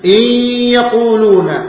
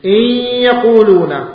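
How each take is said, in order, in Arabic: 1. تندمج النون في الياء مع غنة. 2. تندمج النون في الياء مع غنة.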